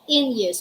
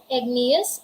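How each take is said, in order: First: The G is silent in the word. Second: The G is sounded in the word. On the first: The speaker calls it wrong. "we don't say" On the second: The speaker calls it right. "we say igneous"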